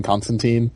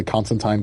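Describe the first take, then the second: First: Put-on "Constantine" ending like "teen"; last syllable of "Constantine" as TEEN; teen pronunciation. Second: "Constantine" ending like "tine"; last syllable of "Constantine" as TYNE; tine pronunciation. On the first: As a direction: say "Constantine" with a long ee at the end. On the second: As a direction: say "Constantine" to rhyme with fine. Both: Shown as a demonstration. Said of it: "I can get the Constantine, Constantine, like, thing".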